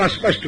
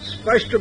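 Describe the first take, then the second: First: An extra vowel is added before the S. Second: The word starts directly with the S cluster. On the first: The speaker calls it wrong. "अस्पष्ट बोलेगा" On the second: The speaker calls it right. "स्पष्ट बोलो"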